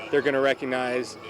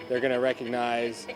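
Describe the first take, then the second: No difference in how they are said.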